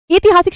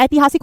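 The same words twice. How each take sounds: First: ऐतिहासिक said "eetihasik", without the 'ai'; higher "EE-ti-haasik" for ऐतिहासिक; wrong pronunciation. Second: ऐतिहासिक opening on open 'ai'; correct pronunciation. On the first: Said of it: "शब्द नहीं होता". (ऐतिहासिक को 'इतिहासिक' बोलना) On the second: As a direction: say ऐतिहासिक as "AI-ti-haasik". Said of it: "ऐतिहासिक होता है". (ऐतिहासिक की शुरुआत 'ऐ' से) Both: Shown as a demonstration.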